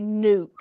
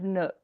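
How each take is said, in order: First: The word rhymes with duke. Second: The word rhymes with book. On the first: This is one person's own way of saying it. "does Mal say nuke instead of nook?" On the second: This is the usual way of saying it. "instead of nook"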